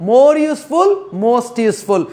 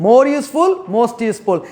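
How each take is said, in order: Both takes have the same delivery.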